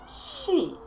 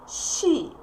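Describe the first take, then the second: The two takes are said the same way.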